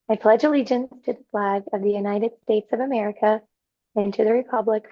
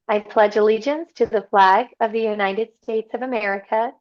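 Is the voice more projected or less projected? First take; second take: less projected; more projected. First: The voice is held back and quieter. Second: The voice is somewhat projected.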